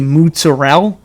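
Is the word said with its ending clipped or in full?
clipped. The word is said in accent, ending dropped. The speaker calls it wrong. "where's the rest of the letters?"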